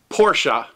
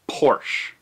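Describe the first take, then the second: First: The name is said the German way. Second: The name is said the North American way. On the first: "is pronounced Porshah in German" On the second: "a lot of people in North America, pronounce it Porsche"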